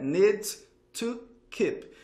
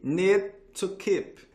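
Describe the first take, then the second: First: Each word is separate, with the D pronounced. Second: The words are linked, with the D dropped. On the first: "separadinho é need to keep" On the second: "aqui ele não fala esse D"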